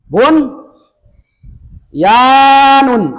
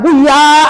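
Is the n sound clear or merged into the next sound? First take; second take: clear; merged. First: The n is pronounced clearly before the y. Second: The n merges into the following y. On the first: The speaker calls it right. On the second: The speaker calls it wrong. "Jangan dibaca buya"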